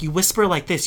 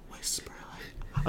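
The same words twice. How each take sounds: First: Said in the usual way. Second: Very soft, slow whisper demo; barely audible instructional whisper. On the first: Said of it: "So I was like". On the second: Shown as a demonstration. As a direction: show someone how to whisper, all air. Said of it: "I'm doing it right now".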